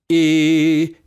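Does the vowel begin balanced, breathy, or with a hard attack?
hard attack. The vowel starts with a sharp glottal catch. The speaker calls it wrong. "Here is an example of a hard glottal attack of onset"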